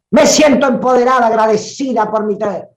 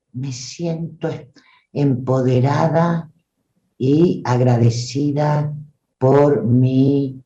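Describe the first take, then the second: First: Much higher, louder and rushed, shrill edge; the strident take of the same line. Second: Slow, dull, held-back lows; flat covered version of me siento empoderada; muffled low voice. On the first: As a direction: blast me siento empoderada out piercingly. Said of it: "las estridencias". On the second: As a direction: say it covered and heavy, without ring. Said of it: "los bajos". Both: Shown as a demonstration.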